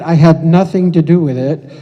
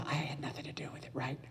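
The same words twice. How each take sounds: First: Loud, emphatic aside to the audience; loud disclaimer. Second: Quick, hushed aside; whispered disclaimer. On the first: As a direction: belt it out to deny any part in it. Joking disclaimer of the pupils' volunteering. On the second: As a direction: mutter it fast under your breath. Repeats the disclaimer under the breath. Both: Acted.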